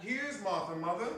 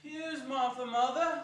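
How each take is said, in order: First: Put-on higher, bright girl's voice; young girl. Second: Put-on higher, cheering kids; excited children. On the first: A girl tells her mother Martha is home, higher and eager. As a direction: announce it like an eager daughter. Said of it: "said a girl". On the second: The small Cratchits cry out to their mother, high and excited. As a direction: cry it out like little ones. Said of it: "cried the two young Cratchits".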